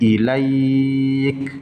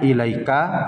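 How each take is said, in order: First: The word ends on a consonant, vowel dropped. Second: The word ends with a final vowel sound. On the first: The reader stops at this word. "karena berhenti menjadi ilaik" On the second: The reading continues without stopping. "Lafaznya ilaika"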